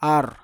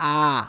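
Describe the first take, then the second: First: It ends with a clear r sound. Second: It ends on the vowel without r. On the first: The speaker calls it wrong. "র স উচ্চারণ সরেয়া বয়বিন্দু র" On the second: The speaker calls it right. "আর এর উচ্চারণ করব আ"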